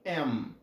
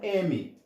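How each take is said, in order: First: It ends with both lips pressed together. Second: It ends without the lips closing. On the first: This is how the letter is named in English. "Em inglês, ele é pronunciado como M. Tá vendo esse sonzinho final... um bilabial sound" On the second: This is how the letter is named in Portuguese. "Pra gente aqui no Brasil ou no português. Ele é pronunciado como M"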